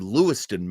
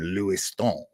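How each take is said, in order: First: The name is said the plain English way. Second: The name is said the local French-influenced way.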